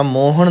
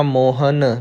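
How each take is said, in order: First: ਮੋਹਣ ending on retroflex ਣ; wrong retroflex n. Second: ਮੋਹਨ ending on a plain dental ਨ; dental nanna. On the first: Teacher showing what not to read, ਮੋਹਣ with retroflex n. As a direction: curl the tongue back for the end of ਮੋਹਣ. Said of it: "ਇਹ ਨਾਣਾ ਨਹੀਂ ਪੜਨਾ". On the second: Teacher showing correct reading, ਮੋਹਨ with a clear dental n. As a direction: end ਮੋਹਨ with the tongue at the teeth. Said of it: "ਨੰਨਾ ਲਾਉਣਾ ਹੈ". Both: Shown as a demonstration.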